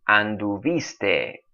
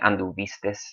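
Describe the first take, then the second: First: The word ends in a vowel, with no final s. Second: The word ends with an added final s sound. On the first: This is the standard academy form. The speaker calls it right. "the way I read them a minute ago, is exactly the way they are supposed to be said" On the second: This is a Mexican regional form. The speaker calls it wrong. "that's the Mexican way of saying all of those uh, verbs"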